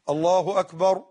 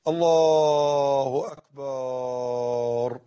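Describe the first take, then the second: First: The vowels are kept short, not lengthened. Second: The vowels are drawn out and lengthened. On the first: The speaker calls it right. "لا تطول فيه" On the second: The speaker calls it wrong. "غلط يا أخي"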